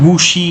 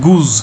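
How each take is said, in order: First: The word ends with an sh sound. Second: The word ends with a z sound. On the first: The speaker calls it wrong. "গুশি এরকম নয় কিন্তু" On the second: The speaker calls it right. "এটা জ উচ্চারণ হবে"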